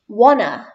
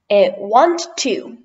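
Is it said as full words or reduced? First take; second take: reduced; full. First: The words are blended into one reduced word. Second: Both words are said fully and separately.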